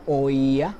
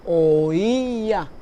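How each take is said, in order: First: Said in the usual way. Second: "oía" louder and drawn out, long stressed í; separate-syllable hiatus. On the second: Shown as a demonstration. Teacher shows three syllables to students, "oía" stretched on the í. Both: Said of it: "se produce una sílaba aparte".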